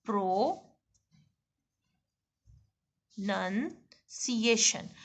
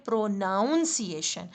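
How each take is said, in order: First: Very slow "प्रोनंसिएशन", pro-NUN-ciation; "प्रोनंसिएशन" drawn out slowly with NUN; correct pronunciation. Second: "प्रोनाउंसिएशन" with pro-NOUN, the common mistake; mock the usual pro-NOUN-ciation; wrong pronunciation. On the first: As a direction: stretch "प्रोनंसिएशन" out syllable by syllable. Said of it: "ये देखें". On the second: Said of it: "लोग इसको क्या कहते हैं". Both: Shown as a demonstration.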